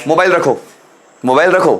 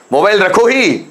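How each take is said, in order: First: Said in the usual way. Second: mobile रखो ही with stress on ही; firm order. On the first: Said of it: "soft order". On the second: Shown as a demonstration. Teacher giving a firm order example, stressed ही. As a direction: insist on ही. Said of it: "formed order".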